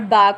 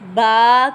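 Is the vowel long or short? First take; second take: short; long. First: The vowel is short and clipped. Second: The vowel is drawn out long. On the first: The speaker calls it right. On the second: The speaker calls it wrong.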